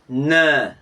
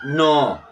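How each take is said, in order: First: The vowel is a front e sound. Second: The vowel is a rounded oh sound. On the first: The speaker calls it right. "ne, ne" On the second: The speaker calls it wrong. "not no"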